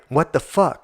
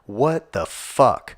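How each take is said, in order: First: Quicker outraged what the fuck; a burst of disbelief; sharper disbelief. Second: Drawn out, slow and incredulous; stunned, slowed-down what the fuck; slow disbelief. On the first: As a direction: snap it out, shocked. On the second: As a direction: let each word hang in disbelief. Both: Real, not acted. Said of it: "repeated outburst".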